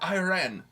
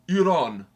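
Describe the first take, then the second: First: The name is said the way Americans say it. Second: The name is said the way Iranians say it. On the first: This is how outsiders say the name. The speaker calls it wrong. "Please stop mispronouncing our name" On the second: This is how the country's own people say it. The speaker calls it right. "We are Iran"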